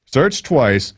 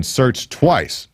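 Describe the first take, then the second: First: Searched pushed up high and hit hard; searched twice repeated with a high, pointed searched; stress on searched. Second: Said in the usual way. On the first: Shown as a demonstration. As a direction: lean on the word searched. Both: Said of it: "repeats it for emphasis".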